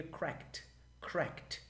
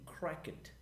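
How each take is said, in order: First: Cracked said as one syllable, krekt, no E D; native English pronunciation. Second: Cracked said with a voiced E D ending, crak-ed; English pronunciation. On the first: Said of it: "se eu quiser ficar mais nativizado". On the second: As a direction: pronounce cracked as two syllables, crak-ed. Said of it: "Eu falo assim". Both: Shown as a demonstration.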